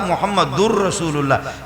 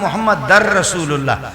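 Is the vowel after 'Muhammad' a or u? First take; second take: u; a. First: The ending after Muhammad has a u vowel. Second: The ending after Muhammad has an a vowel. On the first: "इधर है ला इलाहा इल्लल्लाह मुहम्मद दुर रसूलुल्लाह" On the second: "उधर अशहदु अन्न मुहम्मद दर रसूलुल्लाह"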